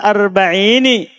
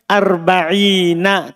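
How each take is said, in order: First: The final nun carries an 'i' vowel. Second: The final nun carries an 'a' vowel. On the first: A form allowed only by poetic necessity. "Ini darurat" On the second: The original, standard form. "Asalnya apa?"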